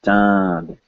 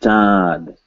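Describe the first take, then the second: The two takes are said the same way.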